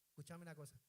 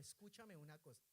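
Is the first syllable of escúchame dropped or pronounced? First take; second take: dropped; pronounced. First: The first syllable of escúchame is dropped entirely. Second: The first syllable of escúchame is pronounced fully. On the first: "Usted tiene que anular la primera sílaba" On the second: "usted no dice escúchame algo o escúchame una cosa"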